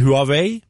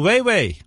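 First: The first syllable starts with a 'hwa' sound. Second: The first syllable starts with a 'way' sound. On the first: The speaker calls it wrong. "Det uttales ikke Huawei" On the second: The speaker calls it right. "Det Weiwei"

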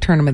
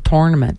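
First: It is said the usual, non-Maritime way. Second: It is said the Maritime way. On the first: "They don't say tournament" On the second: "They say tournament"

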